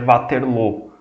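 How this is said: The name is pronounced the French way. This is how the name is said locally. "que é uma pronúncia mais francesa"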